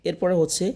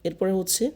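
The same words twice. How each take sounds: Both takes have the same delivery.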